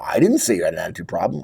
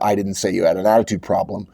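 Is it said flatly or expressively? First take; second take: expressively; flatly. First: It is said with expressive emphasis. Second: It is said with a flat, even tone.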